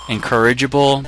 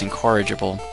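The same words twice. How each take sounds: First: It begins with the sounds of 'encourage'. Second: It begins with the sounds 'in-core'. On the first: The speaker calls it wrong. "I sometimes pronounce it encourage" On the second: The speaker calls it right. "but it's incorrigible"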